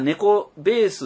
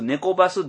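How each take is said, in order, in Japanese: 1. 2番目の部分は『beesu』と発音されています。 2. 2番目の部分は『basu』と発音されています。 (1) "猫ベース、猫バス、どっちでもええかなと思ってます。" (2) "BASS をバスと読む人もいるんですね。"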